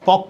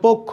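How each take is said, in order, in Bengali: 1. প্রথম স্বরধ্বনিটি খোলা 'a'-এর মতো শোনায়। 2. প্রথম স্বরধ্বনিটি 'o'-এর মতো শোনায়। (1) "তাহলে ভুল বলি" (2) "এটা হবে পক্ষ"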